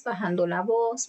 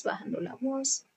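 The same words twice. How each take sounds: First: Said in the usual way. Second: Bajando la voz said much softer, dropping away; lowered voice. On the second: Shown as a demonstration. Teacher showing students how the voice fades, much softer. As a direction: let bajando la voz sink nearly to a murmur. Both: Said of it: "después va bajando la voz".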